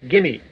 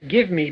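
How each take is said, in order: First: The words blend into one short reduced form. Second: Each word is said fully and separately.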